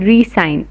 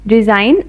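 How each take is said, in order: First: It is said with an s sound: ree-sign. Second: It is said with a z sound: rezine. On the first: To sign again. "To री-साइन again" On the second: To quit one's job. "मैं अपनी नौकरी से इस्तीफ़ा दे दूँगा"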